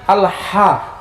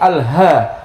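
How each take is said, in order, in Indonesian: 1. Bunyi h-nya jelas dan tegas. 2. Bunyi h-nya kabur dan tersambung. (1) "ha yang bening" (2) "Kalau orang yang nggak betul ngaji"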